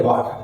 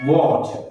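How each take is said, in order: First: Put-on "वाटर" the old Hindi way, waa-tar with plain T; Hindi-accented "वाटर", short and flat-vowelled. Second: "वाटर" as waw-chuh, rounded W and no R; correct modern pronunciation. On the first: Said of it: "पचास साल पहले जब सीखे थे". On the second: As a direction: say "वाटर" with aw vowel, silent R. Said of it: "सही pronunciation क्या है". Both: Shown as a demonstration.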